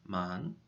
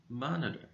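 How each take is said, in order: First: "Mon-i-ter" said in three separate syllables with small pauses; split into syllables. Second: Said in the usual way. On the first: Shown as a demonstration. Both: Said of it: "Monitor has three syllables".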